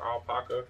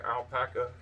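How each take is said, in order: First: "alpaca" said with an open ah, al-PAH-kuh; alternative pronunciation of alpaca. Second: "alpaca" said with a flat a, al-PACK-uh; first pronunciation of alpaca. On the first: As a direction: say "alpaca" as al-POCK-uh. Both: Shown as a demonstration. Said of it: "however you say it".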